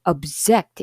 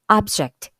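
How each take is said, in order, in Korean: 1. 강세는 두 번째 음절에 있어요. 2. 강세는 첫 번째 음절에 있어요. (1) "동사일 때는 object 이렇게 두 번째 음절에 와요" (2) "명사일 때는 앞, 첫 음절 object"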